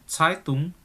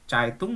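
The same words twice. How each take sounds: First: It begins with a hissing ts and a puff. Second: It begins with a ch sound and no puff. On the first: The speaker calls it right. "itu keluar angin seperti itu" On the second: The speaker calls it wrong. "Kalau kamu bacanya kayak C, Zeitung enggak keluar angin"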